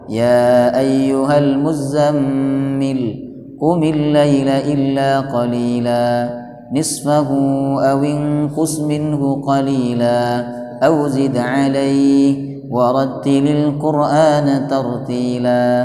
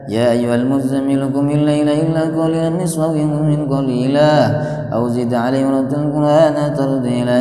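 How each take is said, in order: First: It is recited slowly and carefully. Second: It is recited quickly and hurriedly. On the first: The reciter reflects on the meaning. The speaker calls it right. "pelan, tartil. ... kira-kira beginilah" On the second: The reciter misses the meaning. The speaker calls it wrong. "cuman kedengaran ujungnya aja"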